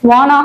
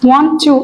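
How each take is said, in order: First: The words blend into one reduced word. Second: Both words are pronounced fully and separately.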